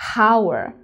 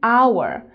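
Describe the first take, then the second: First: The word begins with a breathy h sound. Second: The word begins directly with a vowel sound. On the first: The speaker calls it wrong. "We don't say hour" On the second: The speaker calls it right. "because it has the sound like a vowel"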